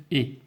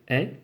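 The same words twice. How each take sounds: First: "et" as a closed é; closed-vowel "et", like é. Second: "est" as an open è; open-vowel "est", like è. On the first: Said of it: "j'ai un E fermé". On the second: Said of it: "j'ai ici un E ouvert". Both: Shown as a demonstration.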